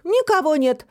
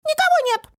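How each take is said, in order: First: Higher, pointed declaration; deliberately loud voice. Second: Very high, squeaky small-creature voice; little voice. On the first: Фантик tells Тусик for eavesdropper, pointedly loud. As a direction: announce it for a hidden listener. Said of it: "сказал специальным громким голосом". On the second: Hidden little creature answers Фантик, tiny high squeak. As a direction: squeak it out from hiding. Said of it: "раздался голосок". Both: A narrator's reading.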